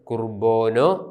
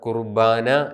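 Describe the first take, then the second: First: It is pronounced with West Syriac vowels. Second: It is pronounced with East Syriac vowels. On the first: "west സിറിയക്കിൻ്റെ കൃത്യമായ ഉച്ചാരണം കുർബോനോ" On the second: "പൗരസ്ത്യ സുറിയാനിയുടെ ഉച്ചാരണമാണ് കുർബാന എന്നുള്ളത്"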